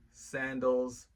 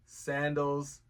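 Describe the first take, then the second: No difference in how they are said.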